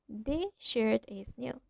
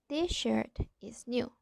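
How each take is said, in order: First: The s blends into the following sh. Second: The same.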